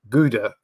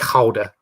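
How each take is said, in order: First: It is pronounced the usual English way. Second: It is pronounced the native Dutch way.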